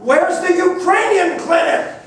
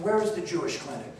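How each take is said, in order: First: It is asked at the loudest volume. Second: It is asked at the softest volume.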